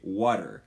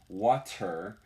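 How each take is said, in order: First: The middle consonant is a quick D-like flap. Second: The middle consonant is a clear T sound. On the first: The speaker is American. "In America, we say water. And it sounds kind of like a D" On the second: The speaker is from Britain or somewhere similar. "you don't say water unless you're from Britain or somewhere"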